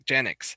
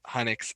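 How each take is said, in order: First: The name begins with a J sound. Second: The name begins with an H sound. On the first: The speaker calls it wrong. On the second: The speaker calls it right.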